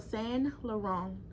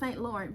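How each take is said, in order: First: The first word sounds like 'san', no t. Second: The first word sounds like English 'saint'. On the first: The speaker calls it right. "So San Laurent" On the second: The speaker calls it wrong. "I want to say Saint Laurent, but I know that's incorrect"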